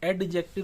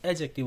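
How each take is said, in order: First: The d sound before the j is pronounced. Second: The d sound before the j is silent. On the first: The speaker calls it wrong. "एडजेक्टिव नहीं होता friends" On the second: The speaker calls it right. "डी का उच्चारण नहीं करते हैं"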